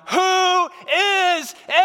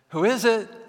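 First: It is screamed out in fear. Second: It is called out a little louder.

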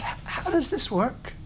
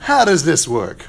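First: The question sounds open and sincerely curious. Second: The question sounds doubtful and skeptical. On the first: The asker genuinely wants to understand. The speaker calls it right. "It's the quality of the question" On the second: The asker doubts it and resists believing. The speaker calls it wrong. "that seems to be the tone that the Nazarenes were speaking in"

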